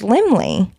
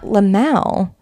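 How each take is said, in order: First: The name ends with an 'ee' sound. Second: The name ends with an 'el' sound. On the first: The speaker calls it right. "It's Limley" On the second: The speaker calls it wrong. "It's not Limmel Theaters"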